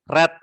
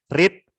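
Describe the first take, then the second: First: The vowel is short, sounding like 'red'. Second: The vowel is long, sounding like 'reed'. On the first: It is the past form of the verb. "sama seperti kita membaca warna merah ya" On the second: It is the present form of the verb. "tapi bacanya berbeda"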